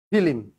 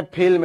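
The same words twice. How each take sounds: First: ফিল্ম said fi-lim, in two syllables; split cluster. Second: Said in the usual way. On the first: Shown as a demonstration. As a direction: add an i between l and m in ফিল্ম. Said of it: "এটা একটু unsmart". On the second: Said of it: "এটা কি?".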